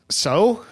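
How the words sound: It sounds embarrassed, as after ripping pants.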